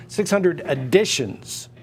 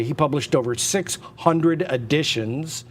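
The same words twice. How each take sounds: First: Slow, with "editions" pressed hard as the correction; slowed, emphatic "six hundred editions"; stress on editions. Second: Said in the usual way. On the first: Shown as a demonstration. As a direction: lean on "editions" to set it against prints. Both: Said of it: "not six hundred prints".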